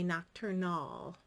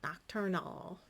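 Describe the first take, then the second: Both takes have the same delivery.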